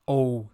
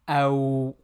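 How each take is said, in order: First: The vowel is a single pure 'oh'. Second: The vowel glides from 'a' to 'w'. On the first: The speaker calls it wrong. "not O" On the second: The speaker calls it right. "again, أو, not O"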